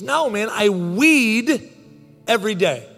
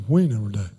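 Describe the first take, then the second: First: "weed" stretched long and pitched high; exasperated-neighbor clarification with a drawn-out "weed"; stress on weed. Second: Low, run-together imitation of the neighbor; deep, garbled retold answer; neighbor's cryptic mumble. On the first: Retold or imitated. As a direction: spell it out slowly, leaning hard on "weed". Neighbor clarifies the misheard word. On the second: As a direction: drop deep and blur "We never day" into one phrase. Neighbor repeats his misheard answer.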